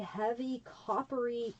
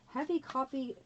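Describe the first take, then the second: First: The phrase is said at a normal pace. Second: The phrase is said very fast.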